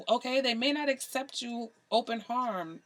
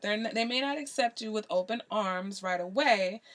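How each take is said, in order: First: Slipping into a light Jamaican accent; a hint of Jamaican accent on "open harm". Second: Said in the usual way. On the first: Real, not acted. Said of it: "my pseudo Jamaican accent coming out". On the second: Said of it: "Sorry, my pseudo Jamaican accent".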